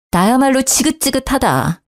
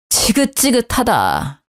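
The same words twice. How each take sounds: First: 나야말로 hit hard, then a falling 지긋지긋하다; stress on 나야말로. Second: Slow, sick-and-tired sigh of a line; slow fed-up sigh; weary disgust. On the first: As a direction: throw it back, punching 나야말로. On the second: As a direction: drag it out, fed up. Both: Acted.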